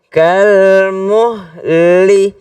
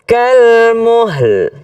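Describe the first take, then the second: First: The word ends with a final vowel sound. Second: The word ends on a bare final l. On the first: This is the form as written. "tulisannya kalmuhli" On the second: This is how it is read when stopping. "tapi kan berhenti"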